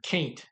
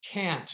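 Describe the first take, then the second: First: It is said in a Texas accent. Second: It is said in a neutral, stage-trained accent. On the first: The speaker calls it wrong. "instead of can't" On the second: The speaker calls it right. "in theater class, they taught me to say can't"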